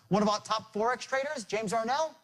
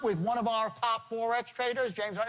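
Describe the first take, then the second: First: Small words blur together; the name stands out. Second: Every word gets similar, separate weight.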